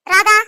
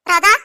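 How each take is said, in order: First: Loud call across the house, pitch rising on Radha; Radha called out loud and high. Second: Said in the usual way. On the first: Acted. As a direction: shout Radha to reach another room. Calling the maid louder.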